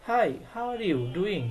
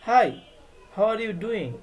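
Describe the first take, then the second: First: Slow, all in one breath; the wrong way, no pause after hi; slow run-together demo. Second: "Hi," then a clear stop before "how are you doing?"; pause after hi. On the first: Teacher showing how not to join hi to the question, slowly. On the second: Teacher modelling the comma pause after "Hi,". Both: Shown as a demonstration. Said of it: "হাই বলার পরে একটু থামতে হবে".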